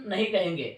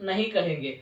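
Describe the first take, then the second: Both takes have the same delivery.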